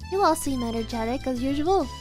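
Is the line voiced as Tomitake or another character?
another character. It is said in another character's voice.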